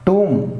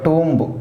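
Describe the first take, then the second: First: The word ends in m, no b sound. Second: The word ends with an audible b sound. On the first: The speaker calls it right. "టూమ్ not టూంబ్" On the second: The speaker calls it wrong. "Not టూంబ్"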